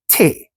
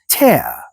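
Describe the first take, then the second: First: It is said with a Gullah accent. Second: It is said with an English accent. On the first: "in my original language of Gullah, we would pronounce it as te" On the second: "someone from England chimed in to say that they would pronounce it as tear"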